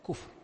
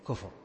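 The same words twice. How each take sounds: First: The middle consonant is silent, without a vowel. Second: The middle consonant is followed by a vowel. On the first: The speaker calls it right. "الوسط الساكن ... لا كفر" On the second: The speaker calls it wrong. "تغلب اللهجة العامية فيحركه يقول كفر"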